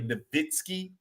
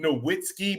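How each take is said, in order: First: The middle consonant is a v sound. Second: The middle consonant is a w sound. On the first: This is how it is said in German. The speaker calls it right. "it's really Nowitzki" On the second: This is how it looks in writing. The speaker calls it wrong. "we see Nowitzki"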